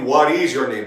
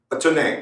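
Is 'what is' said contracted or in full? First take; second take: full; contracted. First: 'What is' is said as two full words. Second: 'What is' is contracted into one syllable. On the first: The speaker calls it wrong. "They do not say" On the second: The speaker calls it right. "They say"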